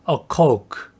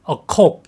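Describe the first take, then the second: First: The vowel glides quickly from o to u. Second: The vowel is a short o without glide. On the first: The speaker calls it right. "코우크를 좀 빠르게 하는 발음이에요" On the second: The speaker calls it wrong. "이라고 발음하시면 안 됩니다"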